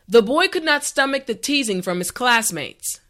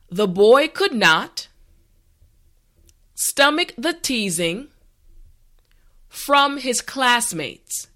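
First: The sentence is said at a natural speed. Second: The sentence is said slowly and carefully. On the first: "the last time at a regular pace" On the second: "this time repeat after me"

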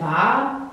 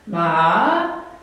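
First: The pitch does not dip mid-word. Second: The pitch dips down mid-word. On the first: It means curse. "is curse" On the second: It means horse. "it goes down the middle, it's like horse"

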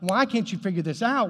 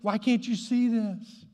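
First: It is said in an angry, frustrated tone. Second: It is said in a loving, compassionate tone.

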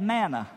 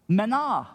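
First: The word has an anglicized English pronunciation. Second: The word has a Hebrew pronunciation. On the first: "what we say in West Texas, we say" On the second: "In Hebrew, the word is manah"

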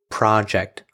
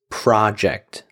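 First: The stress is on the first syllable. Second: The stress is on the first syllable.

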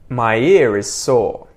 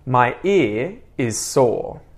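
First: The words run together with a linking R. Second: Each word is said separately, without a linking R. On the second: "first unlinked or unconnected"

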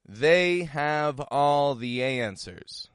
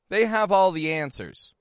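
First: The sentence is said at a slow pace. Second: The sentence is said at a quick pace.

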